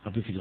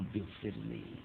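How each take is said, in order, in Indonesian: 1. Diucapkan dengan cepat dan datar, tanpa penghayatan. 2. Diucapkan dengan pelan dan sungguh-sungguh, dengan penghayatan. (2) "Mestinya kan ampunilah saya ya Allah"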